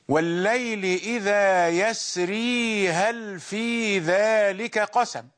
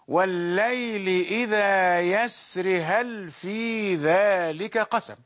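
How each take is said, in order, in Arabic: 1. يُنطق حرف المد 'ee' في آخر yasri. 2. يُحذف حرف المد 'ee' في آخر yasri. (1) "قوم يثبتون الياء" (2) "وآخرون يقرؤون"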